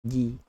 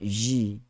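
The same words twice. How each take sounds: First: The consonant is a clean stop without friction. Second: The consonant is released with audible friction. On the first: The speaker calls it right. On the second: The speaker calls it wrong.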